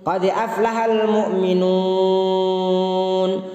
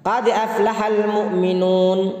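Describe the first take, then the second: First: The final long vowel lasts four beats. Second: The final long vowel lasts two beats. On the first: "empat ketukan" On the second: "bisa dua ketukan"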